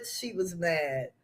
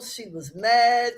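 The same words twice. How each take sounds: First: Much softer, lower, almost to herself; quiet, lower echo of She was mad; soft repeat. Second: Said in the usual way. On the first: Real, not acted. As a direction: drop it to a murmur.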